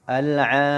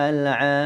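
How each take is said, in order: Both takes have the same delivery.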